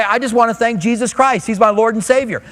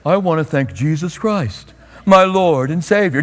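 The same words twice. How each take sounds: First: Said in the usual way. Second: Mock-reverent interview piety; showy pious voice. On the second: Shown as a demonstration. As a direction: ham up the humble athlete thanking Jesus. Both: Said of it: "Just don't do it like this".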